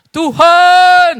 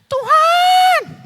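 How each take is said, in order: First: Panggilan keras dengan suara sendiri; seruan biasa. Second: Teriakan suara perempuan tinggi melengking; suara wanita. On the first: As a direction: seru nama Tuhan dengan suara sendiri, lebih keras. (sebelum ganti ke suara wanita, seruan keras suara sendiri) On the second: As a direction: panggil Tuhan dengan suara wanita yang jauh lebih tinggi. (wanita pendarahan berseru kepada Tuhan, suara perempuan tinggi) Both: Acted. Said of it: "Oh, suara wanita, ganti dulu".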